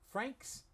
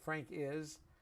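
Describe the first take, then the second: First: It is contracted into one syllable, Frank's. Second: It is said as two full words, Frank is. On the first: The speaker calls it right. "What we would use is Frank's" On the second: The speaker calls it wrong. "we rarely say Frank is"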